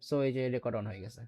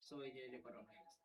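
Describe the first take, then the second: First: Said in the usual way. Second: Recorded playback. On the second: Shown as a demonstration. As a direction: voice played back from a phone recorder. (Recorder থেকে বাজানো কণ্ঠ) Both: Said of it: "So এটা যদি play করি".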